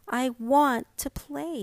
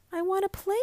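First: Wistful plea. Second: Put-on pleading boy. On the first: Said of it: "reluctance and a certain wistfulness". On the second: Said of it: "Joseph pleads". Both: A narrator's reading.

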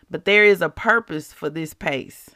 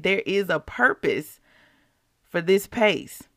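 First: Said in the usual way. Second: Emotional. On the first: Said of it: "Why am I getting emotional". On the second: Real, not acted. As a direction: let the feeling catch you as you repeat it. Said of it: "Why am I getting emotional right now".

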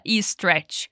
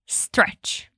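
First: "e stretch" with an added i sound before stretch; wrong extra vowel. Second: "stretch" starting straight on the s, no vowel before; whispered "stretch", no i before the s; correct stretch. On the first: Teacher showing students the wrong vowel before stretch. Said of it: "não coloca um som de I no começo". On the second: Teacher showing students the right start of stretch. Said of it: "a gente fala stretch". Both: Shown as a demonstration.

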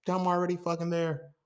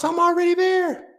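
First: High but no longer shouted; restrained insistence. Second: Very high, loud outburst; exasperated shout. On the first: Podcaster repeating his protest, insistent without shouting. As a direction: insist on it, pulling the volume back. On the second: Podcaster protesting he needs no coffee, exasperated shout. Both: Real, not acted.

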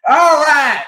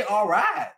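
First: Much higher, louder fake Southern "All right"; fake Southern command accent. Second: Said in the usual way. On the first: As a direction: bark it in a put-on Southern drawl. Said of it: "fake Southern accent sometimes when they're commanding". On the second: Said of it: "fake Southern accent".

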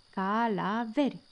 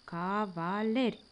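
First: "Calaveri" with l and v swapped, said slow and puzzled; puzzled mispronunciation. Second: "cavaleri" split slowly into syllables ca-va-le-ri. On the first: Acted. Kitten repeating "Calaveri" to his father, slow and puzzled. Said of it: "răspunse Jup nedumerit". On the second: Shown as a demonstration. Father teaching the kitten "cavaleri" slowly, syllable by syllable. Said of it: "despărțind cuvântul în silabe".

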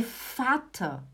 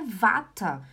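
First: "fata" with the V sounded as F, slowly; correct F sound. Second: "vata" with a voiced V, as in Portuguese; wrong V pronunciation. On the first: Teacher correcting YouTube German for students, slow F pronunciation. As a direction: stretch "fata" slowly with a clear F. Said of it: "ele é o fal". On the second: Teacher warning students off a bad pronunciation, wrong voiced V. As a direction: say "vata" with a buzzing V sound. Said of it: "não é vata". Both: Shown as a demonstration.

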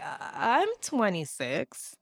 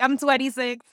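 First: Slow, uneasy imitation; hesitant answer. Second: Quoted through laughter, higher-pitched; laughing imitation. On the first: Terrified man answering her question, hesitant. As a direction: draw the answer out uncertainly. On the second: Host quoting a terrified man's age, laughing. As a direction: crack up while giving his answer. First take of his age reply.

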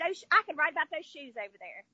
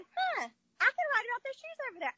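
First: Said in the usual way. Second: Higher, struck by a sudden idea; "Huh" like a lightbulb just went on; mock eureka as she retells it. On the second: Retold moment of realization, repeated.

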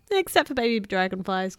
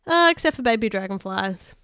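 First: Lightly giggled line; a teasing giggle through the words; giggling. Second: Loud flat line without a giggle; wrong take. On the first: Acted. Tiny teasing Bill about the dragonflies, light giggle. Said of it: "giggled Tiny". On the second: Shown as a demonstration. Narrator's first take before correcting herself, loud and straight. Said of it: "I kinda made that sound wrong".

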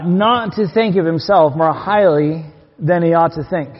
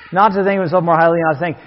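First: Measured, deliberate scripture reading; slow verse reading. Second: Rattled-off repeat of the verse; quick verse recap. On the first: Preacher rereading the verse to his church, slow and deliberate. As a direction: read the verse out slowly, word by word. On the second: Preacher recapping the verse before a question, quickly. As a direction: run through the verse briskly in one go. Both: Real, not acted.

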